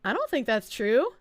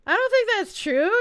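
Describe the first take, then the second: First: Said in the usual way. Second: Higher, louder, emphatic "I don't think that's true"; insistent denial. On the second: Real, not acted. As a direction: push back firmly on the chat.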